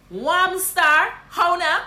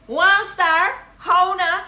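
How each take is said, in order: First: High, loud Guyanese Creole hail; Guyanese greeting. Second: High, louder Guyanese Creole hail; Guyanese greeting. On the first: Guyanese teacher hailing a friend. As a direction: call your friend star, Guyanese-style. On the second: Guyanese teacher hailing a friend louder. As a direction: really call it out, Guyanese. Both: Shown as a demonstration. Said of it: "This is what you're gonna say".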